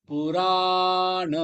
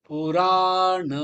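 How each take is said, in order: The two takes are said the same way.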